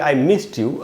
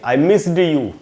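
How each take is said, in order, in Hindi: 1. 'missed' का अंत t जैसा सुनाई देता है। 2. 'missed' का अंत d जैसा सुनाई देता है। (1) "अगर आप इसका उच्चारण ट करेंगे तो आपको बोलने में भी आसानी होगी" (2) "अगर आप इसको ड बोलेंगे"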